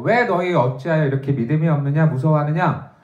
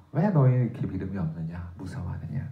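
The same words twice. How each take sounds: First: Said in the usual way. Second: Soft, low rebuke. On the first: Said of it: "예수님께서 제자들을 꾸짖으셔요". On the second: Retold or imitated. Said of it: "예수께서 꾸짖으시는 거죠".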